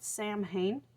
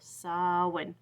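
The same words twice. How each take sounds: First: It is pronounced the way it is spelled. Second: It is not pronounced the way it is spelled. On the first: The speaker calls it wrong. "It's spelled Samhain, and so I want to pronounce it like that" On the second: The speaker calls it right. "but it's Samhain. I looked it up on Google"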